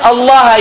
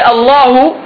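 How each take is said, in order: First: The word ends with a short 'a' vowel. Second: The word ends with a short 'u' vowel. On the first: The word is the object of fearing. The speaker calls it right. "instead of saying Allah" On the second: The word is the one doing the fearing. The speaker calls it wrong. "If you make a mistake, ... you say Allahu"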